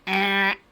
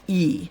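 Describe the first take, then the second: First: The vowel is a short, lax eh sound. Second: The vowel is a long ee sound. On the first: The speaker calls it wrong. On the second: The speaker calls it right. "Letter name E"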